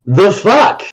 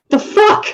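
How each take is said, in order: First: A slightly higher baffled retort; Logan's voice. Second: Squeaky high disbelief; her voice. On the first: As Logan, a lightly voiced baffled retort. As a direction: toss it off, lightly surprised. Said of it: "I change into Logan". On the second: Paladin answers the non-binary character in a high, baffled voice. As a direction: shoot it way up in pitch, baffled. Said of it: "In her voice". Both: Acted.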